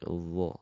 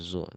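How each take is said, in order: First: The first sound is a soft th with the tongue-tip. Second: The first sound is a buzzing z. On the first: The speaker calls it right. "tapi dhu" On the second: The speaker calls it wrong. "jangan zo"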